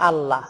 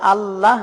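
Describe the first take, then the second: First: Said in the usual way. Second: আল্লাহ with a thick, heavy, drawn-out lam. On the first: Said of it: "আল্লাহ না বলে এটাকে বলতে হবে". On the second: Shown as a demonstration. Teacher correcting how viewers say আল্লাহ, heavy lam. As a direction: stretch the thick ল in আল্লাহ slowly. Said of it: "মোটা করে লামকে উচ্চারণ করতে হবে".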